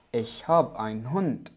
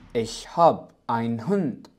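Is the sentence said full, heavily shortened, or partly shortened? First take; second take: partly; partly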